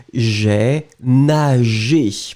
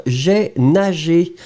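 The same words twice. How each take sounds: First: Very slow, drawn-out "j'ai nagé"; slow model pronunciation. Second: Slow but more connected "j'ai nagé"; model repeated slowly. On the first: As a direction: teach "j'ai nagé" syllable by syllable, stretched out. Models the verb form for students. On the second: Repeats the verb form after checking. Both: Shown as a demonstration.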